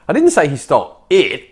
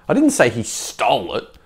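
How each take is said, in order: First: The stress is on "it". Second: The stress is on "stole".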